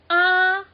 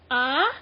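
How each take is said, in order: First: The syllable is said on a flat, level pitch. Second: The syllable is said with a questioning, rising pitch. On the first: "this is flat tone ah" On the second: "as in like um like questioning tone, like ah, like what"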